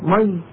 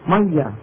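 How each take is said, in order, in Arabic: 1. الكلمة تُنطق مثل 'mayy' القصيرة، بمقطع واحد. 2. الكلمة تُنطق مثل 'mayya'، بياء مشددة. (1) "في الشام بطول مي" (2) "في مصر بطول مية"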